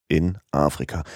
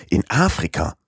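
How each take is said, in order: First: Said in the usual way. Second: Mild disbelief, AFRIKA leaned on; incredulous repeat. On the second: Acted. Passepartout repeats Fix's answer, mildly incredulous. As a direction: echo it as if you can't believe it. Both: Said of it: "wiederholte Passepartout".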